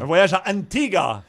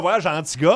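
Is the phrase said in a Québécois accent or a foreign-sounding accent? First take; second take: foreign-sounding; Québécois. First: It is said with a charming foreign-sounding accent. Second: It is said with a Québécois French accent. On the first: The speaker calls it right. "avec ton petit accent, là, charmant" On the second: The speaker calls it wrong. "prononce ça euh, à la québécoise"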